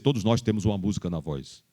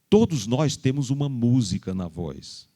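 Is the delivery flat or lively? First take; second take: flat; lively. First: The voice is flat with little intonation. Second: The voice is melodic with lively intonation. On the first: The speaker calls it wrong. "Mas não impacta" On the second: The speaker calls it right. "Eu acabei de fazer isso agora"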